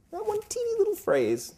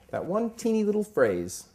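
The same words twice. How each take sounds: First: Mock-tiny squeak. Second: Emphatic, pitched up. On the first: Preacher mocking how small the phrase is, squeaky high. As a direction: make the phrase sound tiny. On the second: Preacher setting up his point, pitched up and emphatic. Repeats phrase, voice climbs. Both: Real, not acted.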